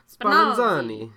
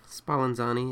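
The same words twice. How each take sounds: First: It is said in an Italian accent. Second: It is said in a plain accent.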